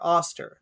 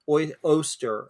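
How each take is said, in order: First: The first vowel sounds like 'oh'. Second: The first vowel sounds like 'oy'. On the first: This is the name owner's own pronunciation. The speaker calls it right. "That's how I've always pronounced it" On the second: This is how other people insist it is said. The speaker calls it wrong. "people are like, no, no, it's it's pronounced"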